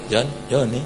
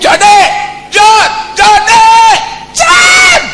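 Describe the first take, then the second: First: Low, soft calling; half-hearted call. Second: High, loud repeated hollers; shouted calls. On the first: Calling someone far away without conviction, soft and low. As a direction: barely raise the voice. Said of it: "Kalau orang agak jauh, Anda panggil". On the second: Calling someone far away in earnest, shouting. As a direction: yell the name harder until it carries. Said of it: "Anda harus teriak". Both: Shown as a demonstration.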